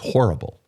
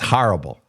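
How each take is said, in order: First: It is said plainly, with a long O. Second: It is said with a Bronx accent. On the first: The speaker calls it right. "It's a long O" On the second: The speaker calls it wrong. "She grew up in the Bronx. She says horrible"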